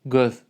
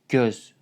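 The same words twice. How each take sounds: First: It is said with a Turkmen pronunciation. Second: It is said with an Azerbaijani pronunciation. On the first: "In Turkmen it was göz" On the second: "but in Azerbaijani they say göz"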